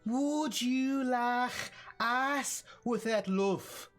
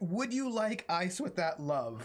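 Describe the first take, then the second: First: It is said in a Liverpool accent. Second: It is said in a neutral accent.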